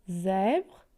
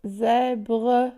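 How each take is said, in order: First: Said in the usual way. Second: "Zèbre" drawn out as zè-bre; syllable by syllable. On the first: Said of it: "Combien de syllabes". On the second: Shown as a demonstration. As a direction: sound both syllables of "Zèbre", final -bre held. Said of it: "il y a deux syllabes". (« Zèbre » découpé en deux syllabes, zè-bre)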